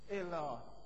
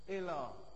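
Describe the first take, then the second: No difference in how they are said.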